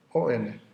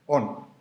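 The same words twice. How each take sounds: First: O-N spelled as two separate letters. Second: On pronounced as one whole word. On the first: Teacher spelling out the Greek word for the class, letter by letter. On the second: Teacher pronouncing the Greek word On for the class. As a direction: say On as a word, not letters. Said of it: "es to on". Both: Shown as a demonstration.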